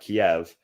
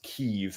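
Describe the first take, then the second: First: The name is said the older English way. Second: The name is said the Ukrainian way. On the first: "not Kiev" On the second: "in Ukrainian it's pronounced Kiev"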